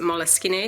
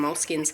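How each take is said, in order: First: The name is pronounced the Italian way. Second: The name is pronounced the plain English way. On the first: "I pronounce it Moleskines because it sounds more Italian" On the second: "most people call them moleskins"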